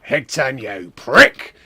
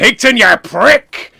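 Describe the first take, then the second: First: Lightly voiced wrestler, ending in a loud bark; Mister McMania. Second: Wrestler's booming shout, high and loud; slow, loud wrestling-promo yell; Mister McMania. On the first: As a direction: start level, punch the last word loud. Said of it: "what's he sound like?". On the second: Retold or imitated. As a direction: bellow it like a wrestler. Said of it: "Wait, what's he sound like?".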